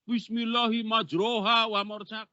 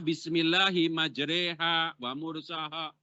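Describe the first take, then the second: First: The second syllable has an 'o' vowel. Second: The second syllable has an 'e' vowel. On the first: The reader learned without a teacher. The speaker calls it wrong. "Kelihatan ngaji nggak pakai guru" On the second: This is how the text is meant to be recited. The speaker calls it right. "Kan di dalam Quran ada yang dibaca"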